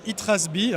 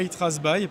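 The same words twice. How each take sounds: First: The name is pronounced the Norwegian way. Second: The name is pronounced the English way. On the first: The speaker calls it right. "on dit bien Itrasby hein" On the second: The speaker calls it wrong. "et pas Itrasby parce que n'en déplaise, c'est du norvégien, c'est pas de l'anglais"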